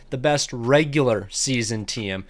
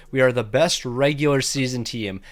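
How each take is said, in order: First: Slow, with "regular" leaned on hardest; emphasized. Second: Said in the usual way. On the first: Shown as a demonstration. Gamer stressing to viewers "best regular season team", "regular" leaned on, slowly. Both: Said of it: "And I wanna emphasize that".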